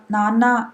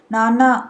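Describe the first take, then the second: First: Happy call. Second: Put-on a child calling out a little louder, arms out. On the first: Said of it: "అని అరిచాడు". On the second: Son calls his father again, a little louder. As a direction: call nanna again, a bit louder. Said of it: "మరింత బిగ్గరగా పిలుస్తూ". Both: A narrator's reading.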